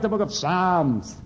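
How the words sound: It is said in a cheerful Irish accent.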